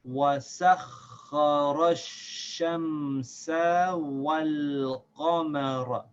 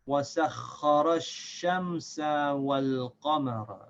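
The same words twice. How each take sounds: First: It is read at a moderately quick pace. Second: It is read at the quickest pace. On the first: "Again, a little faster" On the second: "And now a little bit faster again"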